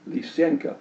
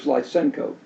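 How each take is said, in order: First: The name has a Russian-style pronunciation. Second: The name has an English-style pronunciation. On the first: The speaker calls it right. "it should be pronounced Lysianka" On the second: The speaker calls it wrong. "usually pronounced by people in the English-speaking world as"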